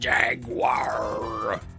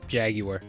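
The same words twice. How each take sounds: First: The word is pronounced the American way. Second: The word is pronounced the British way. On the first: The speaker calls it wrong. "Because I'm American, so I say it like Jaguar" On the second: The speaker calls it right. "Even though it should be Jaguar. Which sounds weird in an American accent"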